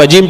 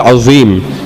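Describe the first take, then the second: First: The middle consonant is a j sound. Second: The middle consonant is a z sound. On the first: The speaker calls it wrong. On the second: The speaker calls it right.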